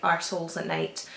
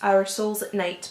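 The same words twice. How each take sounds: First: The words are slurred together into one run. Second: Each word is said slowly and clearly apart. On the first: The speaker calls it wrong. "say it without enunciating it properly" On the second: The speaker calls it right. "I have to say that slowly"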